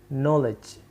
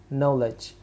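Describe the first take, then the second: The two takes are said the same way.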